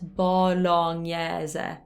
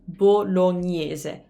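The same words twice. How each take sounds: First: The vowels are open. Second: All the vowels are closed. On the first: The speaker calls it wrong. "Those would be like kind of open vowels" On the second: The speaker calls it right. "every vowel is closed in this word"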